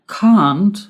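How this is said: It is said with a British accent. "the pronunciation in British English"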